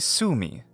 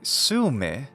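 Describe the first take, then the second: First: The word ends in a long ee vowel. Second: The word ends in a short i vowel. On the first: "a more natural English rendition would be Sumi" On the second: "We ought to say Sumy"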